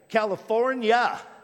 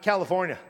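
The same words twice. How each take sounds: First: Every syllable of the word is fully pronounced. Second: The word is said clipped, with sounds dropped. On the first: The speaker sounds proper or uppity. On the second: The speaker sounds local and casual.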